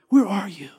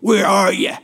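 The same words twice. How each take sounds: First: It sounds tender and heartbroken. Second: It sounds angry and threatening.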